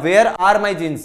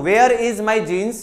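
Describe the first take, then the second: First: "Where are my jeans" loud, falling at the end; alternative example sentence. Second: "Where is my jeans" high and loud, rising at the end; questioning example sentence. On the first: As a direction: punch WHERE, bring "jeans" down. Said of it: "या". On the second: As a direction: punch WHERE, leave "jeans" hanging upward. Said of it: "मैं एक sentence बोलता हूं". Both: Shown as a demonstration.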